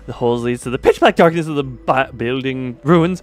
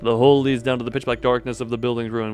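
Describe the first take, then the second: First: It is said in an announcer voice. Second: It is said in a normal voice.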